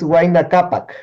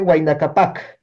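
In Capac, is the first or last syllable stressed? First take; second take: first; last. First: The stress is on the first syllable. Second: The stress is on the last syllable. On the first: The speaker calls it right. "es Huayna Cápac" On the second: The speaker calls it wrong. "por ahí escuché Huayna Cápac"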